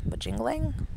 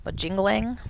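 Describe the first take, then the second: First: Majingling retried with a hard j, higher and questioning; second try. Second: Majingling tried with a soft j, rising in doubt; test-say Majingling as /mə-zhing-gling/, questioning; unsure pronunciation. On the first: Vlogger retrying the horse name Majingling with a hard j, higher. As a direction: say Majingling as /mə-jing-gling/, pitching up. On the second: Vlogger puzzling over a horse name, trying Majingling with a soft zh. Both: Real, not acted. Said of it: "How did I think I was gonna say this?".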